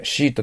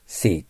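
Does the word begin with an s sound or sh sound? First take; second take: sh; s. First: The word begins with a sh sound. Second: The word begins with an s sound. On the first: The speaker calls it wrong. "シートって言っちゃダメですよ。" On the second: The speaker calls it right. "背の口をして、"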